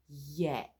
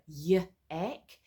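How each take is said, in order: First: A soft y glides straight into the vowel. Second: An extra uh vowel follows the y sound. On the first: The speaker calls it right. "It's a yak" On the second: The speaker calls it wrong. "It's not a y-ack"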